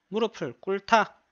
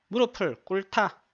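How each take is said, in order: Both takes have the same delivery.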